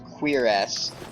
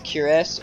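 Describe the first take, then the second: First: It is said like queer ass. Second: It is said like the word curious. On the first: The speaker calls it wrong. "One of the pronunciations is Queeress" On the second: The speaker calls it right. "That is the correct word to um to say it is Curious"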